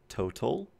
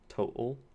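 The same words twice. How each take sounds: First: The middle consonant is a clear t. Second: The middle consonant is a glottal stop. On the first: "If you're a British English speaker, you would say total" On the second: "in which case you'd have the glottal stop"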